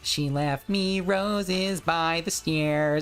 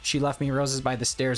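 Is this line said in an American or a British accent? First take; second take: British; American. First: It is said in a put-on British accent. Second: It is said in a plain American accent. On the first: The voice code will accept it. The speaker calls it right. "You have to go, ... they sound British" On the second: The voice code will not accept it. The speaker calls it wrong. "you can't say like"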